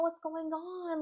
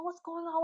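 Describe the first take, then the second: First: Higher, pressing "What's going on?" again with a fall; concerned friends repeating. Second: Higher, mock-worried "what's going on?"; concerned friends. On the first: Retold or imitated. Friends imitated pressing crying Dylan, high and worried. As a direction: push the worried question once more, pitched up. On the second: Friends imitated asking crying Dylan, high and worried. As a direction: play the worried friend, pitched up. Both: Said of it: "they were just like".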